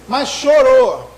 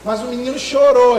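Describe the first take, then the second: First: Chorou stretched slow and loud; slow emphatic chorou. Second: Said in the usual way. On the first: Shown as a demonstration. Pregador enfatiza o choro do bebê, chorou arrastado e forte. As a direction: lean hard on chorou, drawn out. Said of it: "E chorou, chorou, chorou".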